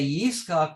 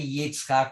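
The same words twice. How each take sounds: First: The middle consonant is a plain 's' sound. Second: The middle consonant is a 'ts' sound. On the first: The speaker calls it right. "we say Yitzchak with a samach" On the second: The speaker calls it wrong. "We don't say Yitzchak with a tzadi"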